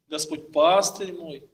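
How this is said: The stress falls on the second word. The Lord's role is that of a shepherd. "поставили на второе слово"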